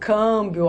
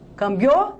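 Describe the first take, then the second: First: The stress falls on the first syllable. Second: The stress falls on the final syllable. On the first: The speaker calls it right. "eu falo câmbio, ó, tá? Tem um acento" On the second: The speaker calls it wrong. "Eu falo cambiou? Não"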